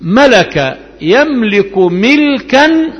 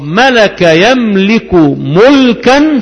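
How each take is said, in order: First: Slow drill, ملكا stretched as "miiil-kan"; kasra on the mim. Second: Slow drill, ملكا stretched as "muuul-kan"; damma on the mim. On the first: Teacher drills the verb for students, ملكا slowly said "milkan". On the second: Teacher drills the second form, ملكا slowly said "mulkan". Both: Shown as a demonstration. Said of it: "بكسر الميم وضمها".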